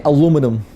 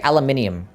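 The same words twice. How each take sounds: First: "aluminum" the American way, a-LOO-mi-num; "aluminum" without the second i. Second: "aluminium" with the extra i, al-yu-MIN-ee-um; "aluminium" stressed on MIN, ending -ee-um; Australian aluminium. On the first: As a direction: say "aluminum" in four syllables, stress on LOO. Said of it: "We don't say aluminum". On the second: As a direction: say "aluminium" with five syllables. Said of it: "We say it how we spell it". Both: Shown as a demonstration.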